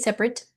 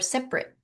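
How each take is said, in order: First: The final T sound is pronounced. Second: The final T sound is left off. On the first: "sep with a T" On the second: "with no T"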